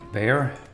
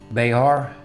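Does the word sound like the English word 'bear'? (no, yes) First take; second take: yes; no. First: It sounds just like the word bear. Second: It does not sound like the word bear. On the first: The speaker calls it right. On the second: The speaker calls it wrong.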